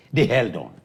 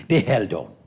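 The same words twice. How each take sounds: The two takes are said the same way.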